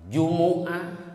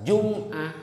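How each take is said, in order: First: The m is followed by an u vowel. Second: The m is followed by no vowel. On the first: "bisa domah" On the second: "bisa sukun"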